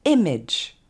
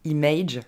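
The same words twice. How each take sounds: First: IMAGE as "EM-edge", first syllable punched louder; correct English pronunciation. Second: IMAGE wrongly ending in "aydge"; evenly pitched IMAGE with the ending over-pronounced; French speakers' mispronunciation. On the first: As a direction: stress the start of IMAGE, short "edge" after. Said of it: "l'accent tonique tombe sur la première syllabe". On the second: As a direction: say IMAGE as "ee-MAYDGE" with a long last vowel. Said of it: "On ne dira pas". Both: Shown as a demonstration.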